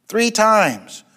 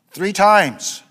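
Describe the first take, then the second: No difference in how they are said.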